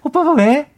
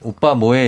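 First: It is said in a put-on higher voice. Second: It is said in a natural voice.

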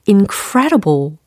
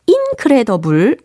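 First: The stress falls on the second syllable. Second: The stress falls on a syllable other than the second. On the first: The speaker calls it right. "이음절 강세다" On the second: The speaker calls it wrong. "incredible 아니고 ... 이거 강세 틀렸죠"

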